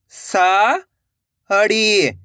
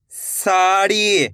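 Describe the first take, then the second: First: "sari" split into two long syllables. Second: Said in the usual way. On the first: Shown as a demonstration. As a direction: draw out सा, pause, then ड़ी in "sari". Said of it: "एक एक अक्षर का उच्चारण". ("साड़ी" को तोड़कर, सा... ड़ी) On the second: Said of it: "तो मिलके बन जाएगा".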